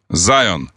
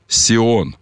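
First: The name is pronounced the foreign, English way. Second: The name is pronounced the traditional Russian way. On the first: "Или вы хотите обязательно по-иностранному говорить?" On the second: "на русский переведите"

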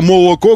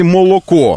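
First: The unstressed O vowels are reduced. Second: Every O is pronounced as a full O. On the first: The speaker calls it right. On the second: The speaker calls it wrong.

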